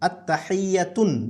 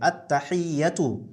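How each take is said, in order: First: The word ends with an added n sound. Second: The word ends on a vowel, no n. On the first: The speaker calls it wrong. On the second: The speaker calls it right.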